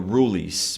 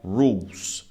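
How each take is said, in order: First: An extra vowel is sounded after the L. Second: It glides from the U straight into L. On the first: The speaker calls it wrong. "cuidado para não falar the rules" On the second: The speaker calls it right. "É rules. Você não fala o E aqui. Você fica no U e no L"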